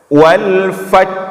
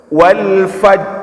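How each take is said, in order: First: The final r sound is dropped. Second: The final r sound is dropped.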